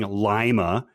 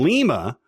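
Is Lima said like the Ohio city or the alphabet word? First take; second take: Ohio city; alphabet word. First: It is said like the Ohio city name. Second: It is said like the phonetic alphabet word. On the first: The speaker calls it wrong. "the wrong way, saying Lima, as in the Ohioan city" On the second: The speaker calls it right. "which is the correct pronunciation"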